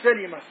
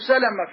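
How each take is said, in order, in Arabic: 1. الصوت بعد اللام هو 'i'. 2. الصوت بعد اللام هو 'a'. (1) "إن كان مدني نقول سلمة كسرها" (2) "إن كان مكي نقول عنه سلمة فتح المام اللام"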